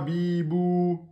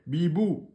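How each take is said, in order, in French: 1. La voyelle après le b est allongée. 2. La voyelle après le b est brève.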